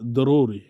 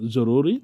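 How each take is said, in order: First: The word begins with a d sound. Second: The word begins with a j sound. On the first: This is how Arabic speakers say it. "তারা বলে দরুরি। তারা জকে দয়ের মতো উচ্চারণ করে বলে" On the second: This is how Bengali speakers say it. "আমরা বলে থাকি জরুরি"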